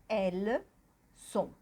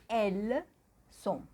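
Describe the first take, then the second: The two takes are said the same way.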